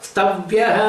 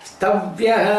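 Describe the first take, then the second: Both takes have the same delivery.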